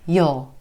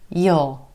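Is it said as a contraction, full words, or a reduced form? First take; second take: reduced form; reduced form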